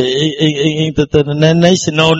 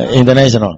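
First: "international" stuttered on the first sounds; demonstrated stutter. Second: Said in the usual way. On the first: Shown as a demonstration. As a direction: get stuck repeating the "i" before getting out "international". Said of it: "không thể nào nói là i". (giả nói lắp chữ "international") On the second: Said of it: "phải nói nguyên chữ".

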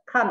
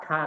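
First: KAN short with a falling tone; fourth-tone kan. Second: KAN drawn out on a level tone; first-tone kan. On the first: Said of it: "artinya melihat ada empat". ("Kan" dengan nada empat yang turun) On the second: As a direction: hold "kan" long and level, Mandarin first tone. Contrasting kan meaning to fell. ("kan" panjang dengan nada satu yang datar) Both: Shown as a demonstration.

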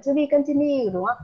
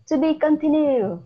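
First: Lively prompt. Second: Emphatic. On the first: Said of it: "Trong cuối phim chúng ta có cái đoạn". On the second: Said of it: "Continue nghĩa là gì nhỉ". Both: Shown as a demonstration.

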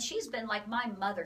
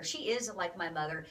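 First: Said in the usual way. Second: "is" leaned on, lower pitch; firm emphasis on the word "is"; stress on IS. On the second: Real, not acted. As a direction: correct yourself by stressing "is". Corrects "been" with stressed "is.

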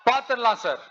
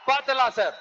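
First: Said in the usual way. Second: பாத்துடலாம் shouted through a laugh; mocking laugh on பாத்துடலாம் sir; laughing dare. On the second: Real, not acted. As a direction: throw பாத்துடலாம் at them, amused.

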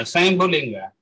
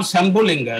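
First: "Shambhulinga" said as "swayambhu-linga", with a "y" glide; corrected pronunciation. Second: "Shambhulinga" opening with a short "sham", no "y" glide; rejected pronunciation. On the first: Lecturer correcting the name for listeners, "Shambhulinga" pronounced "saim-bhu-linga". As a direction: open "Shambhulinga" with "sai-am" instead of "sham". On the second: Lecturer rejecting a wrong name, "Shambhulinga" begun with plain short "sham". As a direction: say "Shambhulinga" as sham-bhu-LIN-ga. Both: Shown as a demonstration. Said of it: "Not Shambhulinga".

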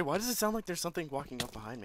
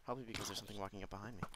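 First: Raised, higher-pitched alarmed question; rattled, rising over the usual voice. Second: Quick, quieter matter-of-fact answer; dry self-answer. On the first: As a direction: demand it, startled. Just hit from behind. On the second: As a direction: answer your own question drily, fast. Answers own question drily. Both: Real, not acted.

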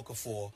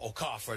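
First: Said in the usual way. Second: Okafor said oh-KAH-fer, stress on the middle; corrected name pronunciation. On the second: Shown as a demonstration. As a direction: say Okafor with open KAH and reduced final "fer". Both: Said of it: "that's the way they say this".

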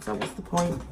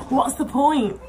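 First: Said in the usual way. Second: What's the point? repeated higher and louder, POINT hit hard; emphatic repeat. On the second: Shown as a demonstration. Vlogger to viewers, repeating the question emphatically. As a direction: throw the question out again with force on POINT.

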